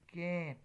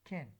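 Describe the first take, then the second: First: The vowel is full and clearly pronounced. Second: The vowel is reduced to a schwa. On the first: "when you are using can in a strong form" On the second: "in a weak form, so it can be pronounced like this"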